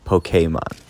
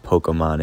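First: Pokemon with KAY, like the end of [name]; "Pokemon", middle vowel a clear ay; said as po-KAY-mon. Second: Pokemon with a weak UH in the middle; "Pokemon", middle vowel reduced to uh, softer; said as POKE-uh-mon. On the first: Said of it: "Just like [name]". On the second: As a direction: say "Pokemon" as poh-kuh-mon. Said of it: "it's not Pokemon". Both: Shown as a demonstration.

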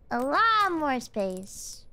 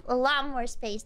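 First: A LOT MORE SPACE stretched out slowly; drawn-out emphasis. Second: Said in the usual way. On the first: Real, not acted. Repeats phrase with drawn-out emphasis.

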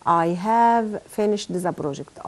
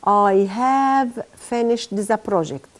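First: Slow softer repeat. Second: Chanted, very slow, have stressed; chanted, lead the class reading in unison. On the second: Chanted, teacher reading the example aloud with students. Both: Shown as a demonstration. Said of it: "نقول مع بعض كده".

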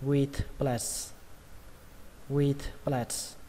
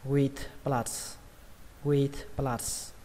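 First: "Platz" in the phrase with a flat eh-like vowel; flattened A vowel. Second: "Platz" in the phrase with an open ah vowel. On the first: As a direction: say "Platz" like "plets" after "with". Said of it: "các bạn đọc thành âm A bẹt". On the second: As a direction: say "Platz" like "plahts" after "with". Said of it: "mình cũng khuyên các bạn đọc âm A". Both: Shown as a demonstration.

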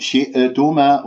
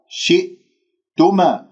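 First: شئتما with a stray vowel released after the glottal stop; leaky hamza. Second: شئتما slowly, a silent glottal hold before tuma; locked hamza. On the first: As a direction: let the hamza bounce in شئتما. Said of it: "وهذا خطأ". (قلقلة الهمزة خطأً في شئتما) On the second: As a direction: shut off the sound after shi in شئتما. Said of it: "هكذا تقرأ". (قفل الهمزة الساكنة في شئتما) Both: Shown as a demonstration.

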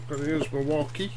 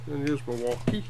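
The two takes are said the same way.

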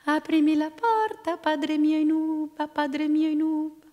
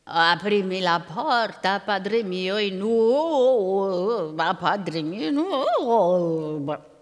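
First: Put-on high, thin little-girl chant on one note; chanted, ogre imitating a child's fine voice; singsong chant. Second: Very slow, drawn-out ogre chant; lumbering ogre singsong, vowels swooping; ogre's unready singsong. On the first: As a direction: chant it evenly, high and clear, like a granddaughter. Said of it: "cantilenò davanti alla sua casetta". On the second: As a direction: stretch the vowels like an ogre faking a girl's call. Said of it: "la voce non era ancora pronta". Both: A narrator's reading.

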